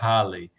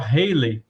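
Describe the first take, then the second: First: The name is said unlike the singer's name. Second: The name is said like the singer's name. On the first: This is how the comet's name would be said. "o cometa seria Halley" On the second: This is how people in the United States said it then. "o pessoal pronunciava [name] como o nome dele"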